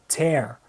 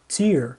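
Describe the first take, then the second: First: The vowel is said more open. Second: The vowel is said more closed. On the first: It means to rip something. "como verbo, ele vai ter a pronúncia mais aberta" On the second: It names a drop from the eye. "se eu mudar a pronúncia, se eu disser tear, significa lágrima"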